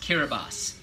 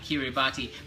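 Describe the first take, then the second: First: The word is said differently from its letters. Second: The word is read exactly as its letters suggest. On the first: The speaker calls it right. "but it's pronounced Kiribati" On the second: The speaker calls it wrong. "spelled Kiribati"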